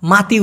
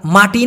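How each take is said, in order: First: মাতি with a soft dental t in the second syllable; Malay soft T. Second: মাটি with a hard retroflex ṭ in the second syllable; Bengali hard T. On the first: Teacher showing how Malays pronounce it, soft t in মাতি. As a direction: say মাতি with ত, as maa-ti. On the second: Teacher showing what Malays don't say, hard ṭ in মাটি. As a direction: say মাটি slowly with ট, as maa-ṭi. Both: Shown as a demonstration. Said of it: "মাতি উচ্চারণ করে".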